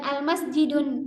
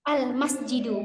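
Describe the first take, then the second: First: The word ends in u followed by n. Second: The word ends in a plain u vowel. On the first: The speaker calls it wrong. "bukan al masjidun" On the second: The speaker calls it right. "Al masjidu karena ada alif lam"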